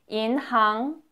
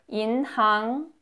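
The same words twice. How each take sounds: No difference in how they are said.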